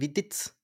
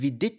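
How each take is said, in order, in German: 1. Der Name endet mit einem 'ts'-Laut. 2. Der Name endet mit einem 'ch'-Laut. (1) "sondern Viditz" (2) "nicht Vidic hinten mit Sch"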